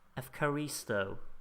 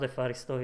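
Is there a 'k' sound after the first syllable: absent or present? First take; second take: present; absent. First: A k sound follows the first syllable. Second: No k sound follows the first syllable. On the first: The speaker calls it right. "that's how you pronounce it" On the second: The speaker calls it wrong. "It's not Efaristo"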